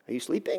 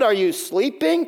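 First: It sounds like a genuine, curious question. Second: It sounds incredulous, like asking for real.

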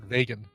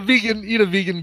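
First: The word sounds like it comes from Vega. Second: The word has its usual everyday pronunciation.

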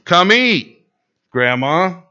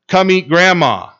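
First: There is a pause before grandma. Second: It is said without a pause before grandma.

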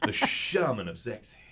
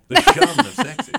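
First: It is said in a creepy, sultry tone. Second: It is said with dramatic feeling.

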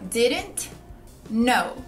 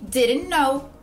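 First: It is slow, with each word said separately. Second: It is fast, with the words linked, T dropped. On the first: "falando pausadamente ou pronunciando bem cada palavra" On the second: "ele vai falar com mais velocidade"

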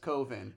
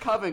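First: The first vowel does not sound like 'oven'. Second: The first vowel sounds like in 'oven'. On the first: The speaker calls it right. "but it's Coven" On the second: The speaker calls it wrong. "it's not Coven because that sounds too much like oven"

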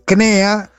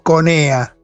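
First: No 'o' vowel follows the first consonant. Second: An 'o' vowel follows the first consonant. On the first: This is the form insiders avoid saying. "Para no decir CNEA" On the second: This is the everyday form used by insiders. "nosotros le decimos CONEA"

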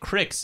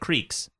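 First: The vowel is a short 'ih' sound. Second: The vowel is a long 'ee' sound. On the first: "I grew up calling it Cricks" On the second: "instead of Creeks"

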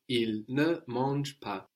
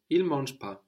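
First: The word ne is clearly pronounced. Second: The word ne is dropped entirely.

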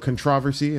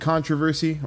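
First: It is said in another region's pronunciation. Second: It is said in the speaker's usual pronunciation.

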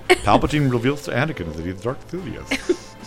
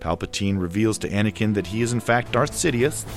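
First: It is said with a lisp. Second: It is said in a normal voice.

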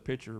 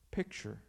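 First: The word is said loosely, with sounds slurred. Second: The word is said crisply, with every sound clear. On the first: The speaker calls it wrong. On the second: The speaker calls it right.

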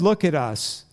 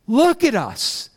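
First: It is said in a flat tone. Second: It is said in an animated tone.

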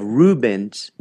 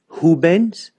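First: The name begins with an English R sound. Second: The name begins with an H sound. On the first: The speaker calls it wrong. "instead of Rubens" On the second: The speaker calls it right. "it's Rubens"

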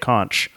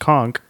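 First: The word ends with a ch sound. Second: The word ends with a k sound. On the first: The speaker calls it wrong. "don't ever say conch" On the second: The speaker calls it right. "is pronounced conk, like a conk on the noggin"

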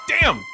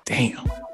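First: It sounds pained, like after stubbing a toe. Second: It sounds admiring, like seeing an attractive girl.

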